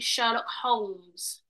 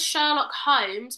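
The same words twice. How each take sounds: First: The L in Holmes is pronounced. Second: The L in Holmes is silent. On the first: This follows the spelling. The speaker calls it right. "it's got an L in it. So I think it should be" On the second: This is how most people say it. The speaker calls it wrong. "everyone says Sherlock Holmes"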